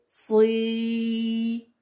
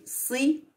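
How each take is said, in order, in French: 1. La voyelle est longue. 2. La voyelle est courte. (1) "Avec le ya" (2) "Avec la kasra"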